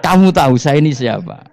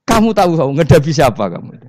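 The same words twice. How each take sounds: First: High, loud challenge with a laugh in it; Umar shouting back. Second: High, loud booming interrogation; angel's stern shout. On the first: Umar turning the angels' question back on them, loud and high. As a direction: throw the question right back, louder. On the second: Grave angel shouting at Umar in the tomb, high and loud. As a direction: bellow the question down at him. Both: Acted.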